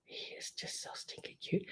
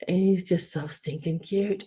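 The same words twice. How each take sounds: First: Breathy unvoiced whisper, much softer. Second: Said in the usual way. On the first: Real, not acted. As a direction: hush it like a secret. Gushing over figurine, whispered take.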